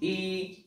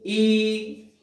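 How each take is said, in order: First: The vowel is held briefly, for a short time. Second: The vowel is held longer, about twice as long. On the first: "ह्रस्व ई" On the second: "दीर्घ ई"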